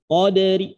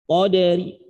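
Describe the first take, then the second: First: The final r is light, with a faint vowel. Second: The final r is light, with a faint vowel.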